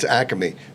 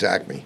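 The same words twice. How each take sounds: First: Acme is said with a Philadelphia accent. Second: Acme is said with a New York accent. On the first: This is how locals say it. "It's Acme" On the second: This is how newcomers from New York say it. "if you're from New York"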